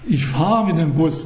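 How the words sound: The stress falls on the word fahre. I ride the bus rather than push or pull it. "Ich tue da nicht schieben oder was weiß ich, oder ziehen"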